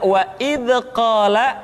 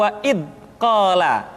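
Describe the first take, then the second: First: "wa id qala" with echo vowel after "id"; bounced dza, mistaken. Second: "wa id qala" with a hard stop at "id"; held-back dza, mistaken. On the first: Teacher showing what to avoid, bounced sound. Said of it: "seringkali dipantulkan". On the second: Teacher showing what to avoid, stopped sound. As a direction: block "id" and pause before "qala". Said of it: "suara yang seringkali tertahan". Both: Shown as a demonstration.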